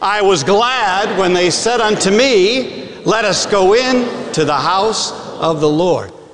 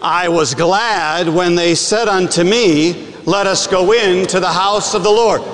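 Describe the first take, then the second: First: It is said with lively enthusiasm. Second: It is said in a plain, even tone.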